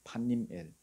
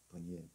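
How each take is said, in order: First: The name begins with a 'p' sound. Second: The name begins with a 'b' sound. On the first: This is the original pronunciation. "원래는 발음이 판님엘이거든요" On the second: This is the Korean translated form. "한국어로는 버니엘로 번역했습니다"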